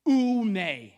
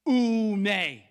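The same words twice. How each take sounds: First: Oume said oo-MAY, stressed on the end; Greek oume. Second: Oume said again, oo-MAY, falling; Greek oume repeated. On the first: Pastor leading the congregation in the Greek word. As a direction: lead the room through Oume, oo-may. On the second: Pastor repeating the Greek word with the congregation. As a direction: repeat Oume slowly with them. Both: Shown as a demonstration. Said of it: "say that word in Greek with me".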